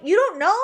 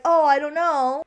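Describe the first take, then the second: First: "you don't know?" thrown back with a rising disbelieving lilt; incredulous echo. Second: Slow, drawn-out unsure "Oh, I don't know"; wishy-washy shrug. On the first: Real, not acted. Speaker mocking Allie's indecision, incredulous rising echo. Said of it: "echoing her words in disbelief". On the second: Retold or imitated. Allie dodging Noah's question, slow wishy-washy shrug. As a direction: say "I don't know" like you can't decide. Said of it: "don't be so wishy-washy".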